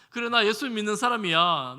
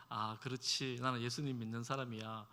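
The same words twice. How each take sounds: First: Loud, confident, 나 punched hard; proud loud declaration. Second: Soft inner murmur, held back; quiet to oneself. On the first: Believer proudly declaring faith to family, loud and bold. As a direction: proclaim it boldly so all can hear. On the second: Believer quietly telling himself his faith, softly. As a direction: say it softly under your breath. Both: Shown as a demonstration. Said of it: "당당하게 큰 소리 치면서".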